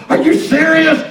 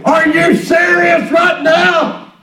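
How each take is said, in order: First: Said in the usual way. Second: Drawn out and raised in disbelief; exasperated outburst. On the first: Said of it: "Teresa, she said". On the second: Retold or imitated. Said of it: "I wanted to say".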